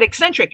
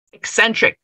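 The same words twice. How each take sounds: First: Higher, relieved agreement on eccentric; eager echo. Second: Said in the usual way. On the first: Acted. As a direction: seize on the word eccentric gratefully, pitched up. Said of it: "Yes, very good". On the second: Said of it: "I offered".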